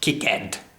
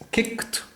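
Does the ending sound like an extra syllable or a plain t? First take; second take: extra syllable; plain t. First: The ending is a separate extra syllable. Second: The ending is a short t sound. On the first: The speaker calls it wrong. "not kicked. We're not overpronouncing that" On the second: The speaker calls it right. "It's a t, t sound at the end"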